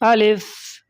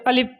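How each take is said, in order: First: The final f sound is released like 'fa'. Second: The final f sound is short and clipped. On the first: The speaker calls it right. "फ़ा की तरह आवाज़ निकलना चाहिए" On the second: The speaker calls it wrong. "बहुत लोग बोलते हैं अलिफ"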